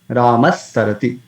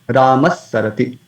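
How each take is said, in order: No difference in how they are said.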